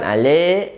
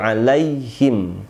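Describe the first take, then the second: First: The middle ya sound is dropped and blurred. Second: The middle ya sound is pronounced clearly. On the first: The speaker calls it wrong. "jangan ale" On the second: The speaker calls it right. "tapi alaihim"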